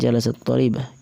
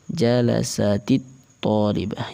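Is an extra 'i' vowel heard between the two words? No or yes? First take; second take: no; yes. First: The two words meet with no vowel between them. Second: An added 'i' vowel links the two words. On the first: "awalnya kan" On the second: "Kemudian dibaca"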